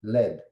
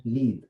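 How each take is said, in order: First: "Lead" said led, short e, like the heavy metal; "Lead" pronounced led, as in lead weights. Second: "lead" said leed, long ee, like to lead a team; "lead" rhymes with need; lead as in leader. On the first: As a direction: say "Lead" as led, rhyming with bed. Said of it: "The chemical element is lead". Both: Shown as a demonstration.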